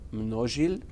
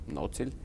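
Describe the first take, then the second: First: The name is said the Czech way. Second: The name is said the Viennese way. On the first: This is the original pronunciation of the name. "Actually, it's pronounced Množil" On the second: This is how locals in Vienna say it. "in Vienna everybody says Nocil"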